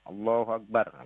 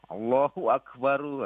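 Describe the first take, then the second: First: The phrase ends on the final consonant r. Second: The phrase ends with an added u vowel. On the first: The speaker calls it right. "Allahu Akbar, kan gitu" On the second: The speaker calls it wrong. "Tahu-tahu ada yang azan Allahu Akbaru"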